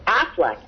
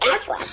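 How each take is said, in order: First: It is said in a normal voice. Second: It is said in a nasal, duck-like voice.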